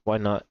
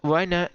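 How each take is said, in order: First: Said in the usual way. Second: Higher, brighter why not; excited. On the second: Pretend. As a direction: lift it up, eager. Repeats with rising pitch.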